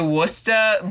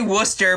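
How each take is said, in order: First: It is said with a Boston accent. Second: It is said without a Boston accent.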